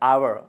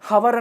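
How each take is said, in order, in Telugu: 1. ఈ పదం నేరుగా అచ్చు శబ్దంతో మొదలవుతుంది. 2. ఈ పదం స్పష్టమైన h శబ్దంతో మొదలవుతుంది. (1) "దీని ప్రొనౌన్సియేషన్ అవర్, ఇక్కడ హెచ్ పలకట్లేదు" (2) "ఇక్కడ హెచ్ ఉంది కదా, హవర్ అనాలి కదా అంటే కాదు"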